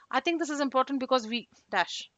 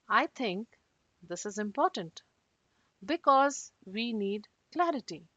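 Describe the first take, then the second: First: It is said fast, without pauses. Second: It is said slowly, with pauses.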